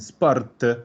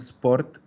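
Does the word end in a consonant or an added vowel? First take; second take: added vowel; consonant. First: The word ends with an added vowel sound. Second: The word ends on a bare consonant. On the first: Italians say it this way. The speaker calls it right. "los italianos no saben terminar una palabra con consonante" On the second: Italians do not say it this way. The speaker calls it wrong. "no dicen sport"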